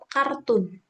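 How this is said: It is pronounced the Indonesian way. "kita bilangnya kan tetap kartun"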